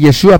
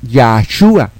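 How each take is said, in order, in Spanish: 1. La primera vocal es un sonido e. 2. La primera vocal es un sonido a. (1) "no tienes que decir Yeshua porque no es así" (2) "es Yahshua"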